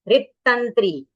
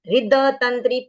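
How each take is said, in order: First: The d is cut short and joins the t. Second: The d is fully said with a vowel. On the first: The speaker calls it right. "द को आधा बोल के तुरंत त के साथ जोड़ देना है।" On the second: The speaker calls it wrong. "पूरा नहीं बोलना है"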